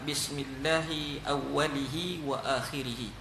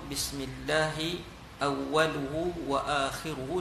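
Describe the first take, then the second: First: The word endings use the vowel i. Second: The word endings use the vowel u. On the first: "Yang ketiga" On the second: "dengan baris hadapan"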